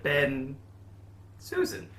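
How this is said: A long pause separates the two names. The speaker calls it wrong. "Not that long a hyphen, just a shorter one"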